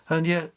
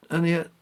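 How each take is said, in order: Both takes have the same delivery.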